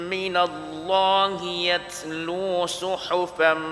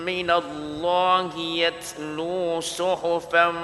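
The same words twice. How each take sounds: The two takes are said the same way.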